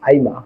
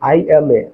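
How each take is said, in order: First: The words are run together into one. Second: The words are said separately and in full. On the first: This is the British short form. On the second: This is how local speakers usually say it.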